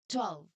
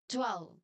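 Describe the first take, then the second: No difference in how they are said.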